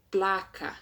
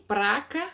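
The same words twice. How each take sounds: First: Said in the usual way. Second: "praca", with an r in place of the l; colloquial praca. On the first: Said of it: "ao invés de". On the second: Shown as a demonstration. Teacher showing "praca" for "placa". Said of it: "ao invés de placa".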